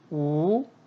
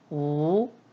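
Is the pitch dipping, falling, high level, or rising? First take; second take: rising; rising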